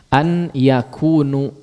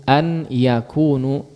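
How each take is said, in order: Both takes have the same delivery.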